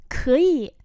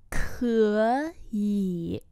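First: Said in the usual way. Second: Two long, held syllables; slow model reading. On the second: Shown as a demonstration. Teacher repeating a word for learners, slowly. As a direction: stretch both syllables out.

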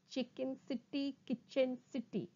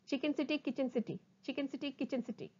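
First: Measured syllables, evenly spaced; slow tongue twister. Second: Rapid, run-together syllables; sped-up tongue twister. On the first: Teacher models a twister for students, slowly. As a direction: separate each syllable carefully. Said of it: "first try saying them slowly". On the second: Teacher races through the twister for students, fast. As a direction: rattle it off twice. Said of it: "speed up". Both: Shown as a demonstration.

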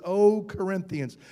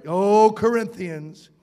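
First: Said in the usual way. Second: "O Corinthians" drawn out slow and louder, "O" stretched long; solemn slow address. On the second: Shown as a demonstration. Preacher reads the apostle's address, slow and louder. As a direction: intone "O Corinthians" slowly, with weight on "O".

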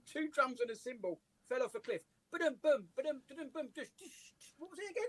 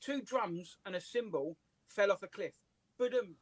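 First: Fumbling punchline, drum noises piling up; muddled ba-dum sounds trailing off; botched joke telling. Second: Slow, deliberate joke read with a rimshot; measured setup, neat ba-dum; kid's careful joke. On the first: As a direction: lose the rimshot and ramble through it. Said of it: "I got it completely wrong". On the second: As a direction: tell it slowly like a proud kid. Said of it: "he says". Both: Retold or imitated.

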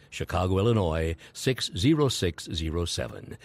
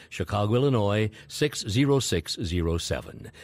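No difference in how they are said.

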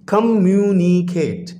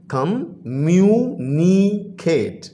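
First: Said in the usual way. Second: कम्युनिकेट stretched out slowly, split into its four syllables. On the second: Shown as a demonstration. Teacher shows pupils the four syllables, slowly. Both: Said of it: "four syllable word है ये".

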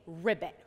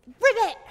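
First: Said in the usual way. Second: High, loud croak-word on a jump; frog ribbit. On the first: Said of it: "say ribbit". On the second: Pretend. Teacher hops with children as a frog, loud high ribbit. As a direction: leap and burst it out like a frog. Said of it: "jump up and say ribbit".

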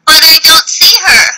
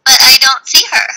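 First: Searching for the teacher; searching, eager. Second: A touch of a sad letdown; disappointed. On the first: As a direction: act out looking eagerly. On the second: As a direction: sound let down at not finding her. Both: Shown as a demonstration. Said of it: "I wanted you to see".

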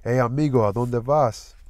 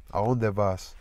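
First: A higher, louder call from the gate, Spanish greeting; calling out sweetly. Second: Said in the usual way. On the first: Acted. Sweets at her gate calls to passing Danny, raised and inviting. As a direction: call him over from the front gate. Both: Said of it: "voice sounded as huskily sweet".

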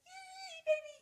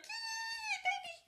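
First: High excited squeal, a bit louder; reenacted happy squeal; squealing yay again. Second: High, loud excited squeal; retelling her own joyful squeal; squealing yay. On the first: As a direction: shriek it with pure glee. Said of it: "And, like". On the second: Retold or imitated. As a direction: squeal with delight like a kid. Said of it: "I'm like".

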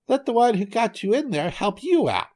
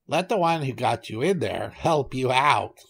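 First: Very high-pitched cartoon monkey; squeaky high retort. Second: Lightly voiced goat; a hint of a goat character in the retort. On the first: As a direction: fling it back in a high little monkey voice. Monkey refuses the trapped tiger. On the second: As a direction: answer back as a goat, only slightly changed. Goat refuses the trapped tiger.

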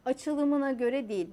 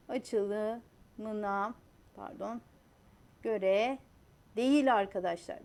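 First: Said in the usual way. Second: "Açılımına" then a long pause before "göre değil", each word set apart; teacher pausing between every word; slow with pauses. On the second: Shown as a demonstration. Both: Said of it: "Bakın şöyle yapayım".

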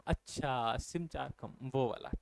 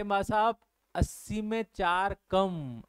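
First: Low, soft acted realisation; imitated elder's quiet, lower-pitched "oh, I see"; elderly person understanding. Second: Put-on slow, drawn-out explanation for an old person; slow, patient-style imitation of explaining; explaining to elderly. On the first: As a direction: softly echo it as an old person catching on. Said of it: "जो बूढ़े लोग होते हैं ना". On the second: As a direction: spell it out slowly, as if to an elder. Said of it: "उनको ऐसे ही बताना पड़ता है".

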